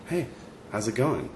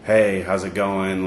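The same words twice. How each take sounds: First: Soft, unhurried, sincere hello; genuine salutation. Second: Routine, automatic hello; knee-jerk greeting. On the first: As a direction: imitate a stranger who quietly means it, pausing after "Hey". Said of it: "he wanted to give me this salutation". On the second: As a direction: toss it out slowly as a mere habit, imitated. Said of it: "just the normal knee-jerk greeting". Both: Retold or imitated.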